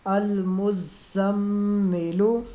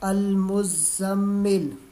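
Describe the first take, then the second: First: The word ends with a short 'u' vowel. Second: The word ends on the bare consonant 'l'. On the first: "लाम पेश लू" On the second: "वक़फ़"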